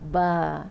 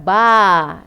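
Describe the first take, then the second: First: The vowel is kept small inside the mouth. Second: The vowel is said with the mouth wide open. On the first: The speaker calls it right. "Di dalam mulut tu ba" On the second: The speaker calls it wrong. "Kita tak payah buka besar ba. Eh, macam tu tak boleh"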